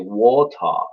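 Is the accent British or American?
British. It is said with a British accent.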